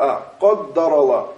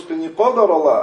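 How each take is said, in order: First: The d sound is lengthened and doubled. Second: The d sound is short and single. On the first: Allah decreed it. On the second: It is the decree of Allah.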